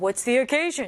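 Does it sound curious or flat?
flat. It sounds flat, without curiosity.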